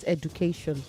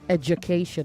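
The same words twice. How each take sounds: First: The middle consonant is a plain d. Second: The middle consonant sounds like a j. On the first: The speaker calls it wrong. "not education" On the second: The speaker calls it right.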